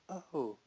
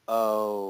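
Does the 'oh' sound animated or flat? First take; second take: animated; flat. First: The 'oh' is lively and expressive. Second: The 'oh' is flat and level. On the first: The speaker recognizes the name. "I would have gone" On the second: The speaker does not know the name. "A flat O"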